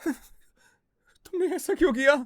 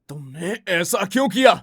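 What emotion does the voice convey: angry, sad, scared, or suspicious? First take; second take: scared; angry. First: The line is said in a scared tone. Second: The line is said in an angry tone. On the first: "scared" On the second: "angry"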